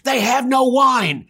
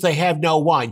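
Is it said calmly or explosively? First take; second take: explosively; calmly. First: It is said explosively and angrily. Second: It is said calmly and mildly.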